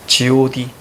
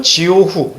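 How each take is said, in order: First: [name] read as the group name, ending 디; hyangchal reading. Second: 지오후 read by Hanja sounds, ending 후; Sino-Korean character reading. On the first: Teacher reveals boy group name to students, hyangchal reading. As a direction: say [name] with the last character turned to 디. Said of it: "음으로 읽어야죠". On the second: Teacher reads made-up characters to students, Sino-Korean reading. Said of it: "이렇게 읽고". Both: Shown as a demonstration.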